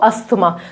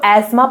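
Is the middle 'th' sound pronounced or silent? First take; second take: pronounced; silent. First: The middle 'th' sound is clearly pronounced. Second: The middle 'th' sound is left silent. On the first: This is the everyday common pronunciation. "हम common language में क्या use करते हैं" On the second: This is the refined pronunciation. "अगर आपको pronunciation बहुत अच्छा करना है तो आप इसको एस्मा प्रोनाउंस कर सकते हो"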